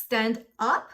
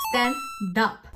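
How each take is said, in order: First: "Stand up" as two words, ending up like a question; unlinked words. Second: "Stand up" said as stan-dup; linked sounds. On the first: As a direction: keep STAND and UP apart, questioning. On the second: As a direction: move the d of STAND onto UP. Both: Shown as a demonstration. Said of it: "No, no, no".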